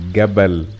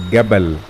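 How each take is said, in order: First: The word begins with a hard G sound. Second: The same.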